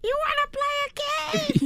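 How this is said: It is said in a put-on character voice.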